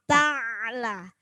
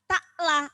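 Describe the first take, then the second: First: The middle consonant is a throaty pharyngeal ain. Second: The middle consonant is a plain glottal stop. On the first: The speaker calls it right. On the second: The speaker calls it wrong.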